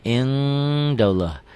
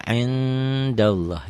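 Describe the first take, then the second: First: "Indallah" with a strong, long "eng" before the d; ng-coloured N. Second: "Indallah" held long but with a lighter ng; less nasal ikhfa. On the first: Teacher shows G in the N, "Indallah" with long ng. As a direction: draw "In" out as a heavy ng hum. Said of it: "nggak begitu eng kali". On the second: Teacher warns against too much nasality, "Indallah" lightly hummed. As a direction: hold "In" slowly without a heavy honk. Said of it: "nggak begitu bindeng". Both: Shown as a demonstration.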